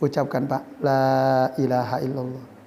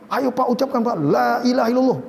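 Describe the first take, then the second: First: It is said gently and softly. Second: It is said forcefully and insistently.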